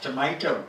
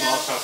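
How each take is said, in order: First: The word is said with an American pronunciation. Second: The word is said with a British pronunciation. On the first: This is how it is said in America. "In America, it's tomato" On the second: This is how it is said in England. "How about in England?"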